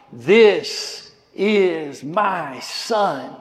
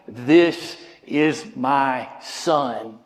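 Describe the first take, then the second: First: Very slow, solemn divine declaration; lightly voiced God the Father. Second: Slow, low, solemn voice of God; a hint of a deep divine voice. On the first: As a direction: let God's words ring out slowly. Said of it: "the very voice of God acknowledging". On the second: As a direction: speak as God declaring his son. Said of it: "hear the very voice of God going".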